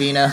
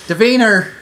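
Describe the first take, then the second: First: The name ends in a plain vowel, no r. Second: The name ends with an added r sound.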